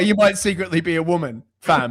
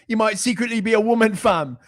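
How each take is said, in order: First: It is said in his plain voice. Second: It is said in an influencer's accent.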